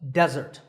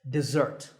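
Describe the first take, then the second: First: The stress is on the first syllable. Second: The stress is on the second syllable. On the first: It names a dry sandy area. "with the stress on the first syllable" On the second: It names a sweet food after a meal. "with a stress on the second syllable"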